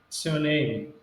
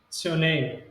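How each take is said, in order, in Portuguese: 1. As primeiras palavras são comprimidas em uma forma rápida e reduzida. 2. As primeiras palavras são comprimidas em uma forma rápida e reduzida.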